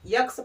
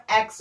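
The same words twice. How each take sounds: First: "यक्स" with a y-glide before the X; wrong student pronunciation. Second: "एक्स" as ex, vowel first; correct pronunciation. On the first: Teacher showing how students misread the letter X, wrong pronunciation. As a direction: say "यक्स" as yex, y first. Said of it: "pronunciation बच्चे करते हैं". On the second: Teacher showing how X should be read, correct pronunciation. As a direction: say "एक्स" with no y-glide. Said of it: "S और एक्स होता है". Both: Shown as a demonstration.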